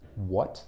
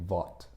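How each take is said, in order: First: The word begins with a W sound. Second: The word begins with a V sound. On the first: The speaker calls it right. "They don't say what" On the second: The speaker calls it wrong. "they say vot"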